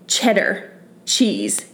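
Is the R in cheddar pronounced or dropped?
pronounced. It is said plainly, with the R sounded.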